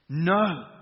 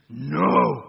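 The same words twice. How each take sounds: First: It is said in a plain voice. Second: It is said in a deep preacher voice.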